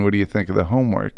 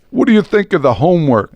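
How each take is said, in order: First: Said in the usual way. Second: A light Brooklyn lilt, a bit higher; mock Brooklyn neighbor asking about homework; Brooklyn accent impression. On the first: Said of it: "this is where I go into regular voice". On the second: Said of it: "I'll do my impression".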